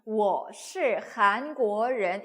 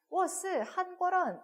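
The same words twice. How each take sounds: First: 我是韩国人 loud and very slow, each syllable's tone fully formed; careful correct tones. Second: 我是한국인 rattled off with the Chinese tones off, pitched high; wrong tones. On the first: Teacher modelling textbook pronunciation for learners, careful correct tones. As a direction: spell out every tone of 我是韩国人, syllable by syllable. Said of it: "이렇게 안 해도". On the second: Teacher showing learners a beginner's mistake, wrong tones. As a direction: say 我是한국인 quickly with careless, incorrect tones. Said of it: "성조 완전 틀렸는데도". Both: Shown as a demonstration.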